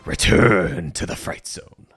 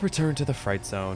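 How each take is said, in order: First: It is said in an overly dramatic way. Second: It is said casually and flatly.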